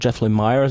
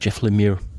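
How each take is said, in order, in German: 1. Der Nachname klingt nicht wie 'Lemur'. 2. Der Nachname klingt wie 'Lemur'. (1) "Ich habe mich die ganze Zeit immer so dran gewöhnt, dass man Jeff Lemire sagt" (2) "die Amis sagen immer Jeff Lemire ... Klingt so wie Tapir oder Lemur"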